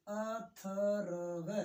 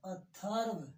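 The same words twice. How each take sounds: First: अथर्व stretched very slowly syllable by syllable; slow split syllables. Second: Said in the usual way. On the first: Shown as a demonstration. Teacher slowing अथर्व for pupils. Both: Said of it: "थ के ऊपर बल".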